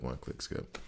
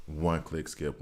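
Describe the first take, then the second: First: Breathy whisper, much softer; whispered aside. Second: Said in the usual way. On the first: Real, not acted. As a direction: drop to a whisper. Repeating a phrase, second time whispered.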